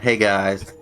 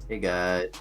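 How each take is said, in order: First: The greeting sounds loud and excited. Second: The greeting sounds flat and unexcited. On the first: The speaker calls it right. "let's run that back" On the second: The speaker calls it wrong. "I'll give you a more exciting intro when you sound excited"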